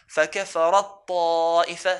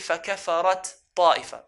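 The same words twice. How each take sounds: First: The final t merges into the following t. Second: The final t is said separately before ta'ifa. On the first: The speaker calls it right. "but ... it would have merged" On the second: The speaker calls it wrong. "we don't say"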